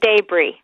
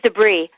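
First: It is said the British way. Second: It is said the non-British way. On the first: "Und die Briten sagen Debris" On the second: "Im Englischen ist es Debris"

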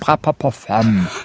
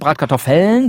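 First: The middle of the word has a p sound. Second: The middle of the word has k and t. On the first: "sondern Bratpapoffeln" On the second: "keine Bratkartoffeln"

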